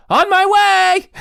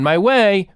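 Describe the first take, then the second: First: On my way with a bright exclaiming lift; exclaimed. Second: Said in the usual way. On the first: Shown as a demonstration. IPhone's version read with an excited exclamation. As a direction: say it like a big announcement. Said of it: "changes it to on my way". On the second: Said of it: "not to on my way".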